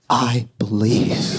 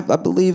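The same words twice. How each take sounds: First: It is said slowly and with heavy feeling. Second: It is said at a normal conversational pace.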